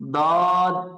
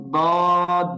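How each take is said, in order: No difference in how they are said.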